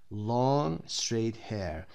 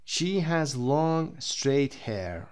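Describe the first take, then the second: First: Very slow, careful repeat of Long straight hair; the phrase stretched slowly for learners. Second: Slow, careful dictation of a sentence; a teacher modelling a sentence slowly; slow model reading. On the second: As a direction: read it out slowly for the class. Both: Shown as a demonstration.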